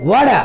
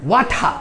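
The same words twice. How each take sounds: First: "ওয়াডা" with a clear d in place of t; American pronunciation. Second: "ওয়াঠা" with an aspirated th-like t; British pronunciation. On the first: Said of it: "American উচ্চারণ হচ্ছে টিটাকে ডি উচ্চারণ করে". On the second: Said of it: "আর ব্রিটিশরা করে কি?". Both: Shown as a demonstration.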